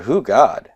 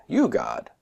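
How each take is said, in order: First: "Who god?" lifted like a question; question tune. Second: "You god." starting high and falling; answer tune. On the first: Teacher playing on Hebrew forms as question and answer, questioning tune. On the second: Teacher playing on Hebrew forms as question and answer, answering tune. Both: Shown as a demonstration. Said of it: "sounds like a question and answer".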